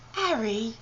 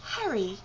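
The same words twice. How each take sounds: First: "Harry" without its H, like "Arry"; mock-British "Harry" starting on the vowel; dropped H. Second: "Harry" with a breathed H; "Harry" said with its H intact; H pronounced. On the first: Retrying the name, H dropped. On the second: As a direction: sound the H at the start of "Harry". Trying the name in British accent. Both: Shown as a demonstration.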